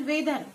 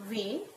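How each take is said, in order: First: Said in the usual way. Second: "Weather" softer and lower, as way, long pause, ther; split into syllables. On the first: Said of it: "We'll take another example". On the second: Shown as a demonstration. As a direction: softly separate the two syllables of "Weather". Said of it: "How will we pronounce it?".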